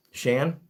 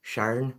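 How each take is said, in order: First: "Shan" with no R, short a, rising; Shan without R. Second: "Sharn" with a clear R, asked rising. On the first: Streamer checking a viewer's name, "Shan" without R. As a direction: say "Shan" like the start of shank, questioning. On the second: Streamer checking a viewer's name, "Sharn" with R. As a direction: say "Sharn" rhyming with barn, questioning. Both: Shown as a demonstration. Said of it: "Is it Sharn or Shan?".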